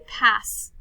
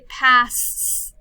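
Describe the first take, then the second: First: The final s sound is said once. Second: The final s sound is said twice. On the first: The speaker calls it right. "I say pass" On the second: The speaker calls it wrong. "I don't say pass"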